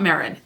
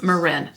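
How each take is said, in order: First: Marin said as MARE-in; mistaken pronunciation. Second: Marin said as muh-RIN; corrected pronunciation. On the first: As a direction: stress the first syllable of Marin. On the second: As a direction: stress the last syllable of Marin. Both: Shown as a demonstration. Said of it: "not Marin".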